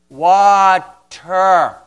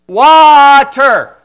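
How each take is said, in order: First: The word is drawn out slowly. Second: The word is said loudly.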